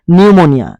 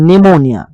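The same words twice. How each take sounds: The two takes are said the same way.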